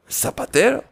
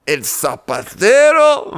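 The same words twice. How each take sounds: First: "¿El zapatero?" pitched high and softer, zapatero lifted in disbelief; a quick high, hushed double take on "zapatero"; surprised question. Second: Slow, incredulous "¿El zapatero?" with zapatero drawn out; surprised disbelief. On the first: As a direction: disciples asking again, high and soft in disbelief. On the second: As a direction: stretch out "zapatero" in slow astonishment. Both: Acted. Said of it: "Se sorprendieron los discípulos".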